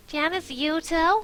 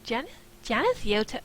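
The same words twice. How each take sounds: First: High, loud, drawn-out squeal. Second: Said in the usual way. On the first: Acted. Morgan reacts to Tamara's list of dates, squealing. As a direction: squeal the name in disbelief. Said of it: "I squealed". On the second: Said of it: "oh, wait, wrong voice".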